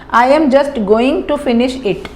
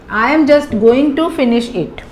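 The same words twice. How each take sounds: No difference in how they are said.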